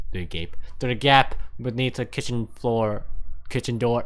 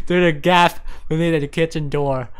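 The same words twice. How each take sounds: First: Tripping over the words; halting, fumbling read; stumbling misread. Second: Said in the usual way. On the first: Real, not acted. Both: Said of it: "I can't fucking read this".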